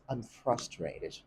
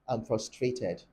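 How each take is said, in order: First: It is said in an American accent. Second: It is said in a Nigerian accent. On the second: "Nigerians say"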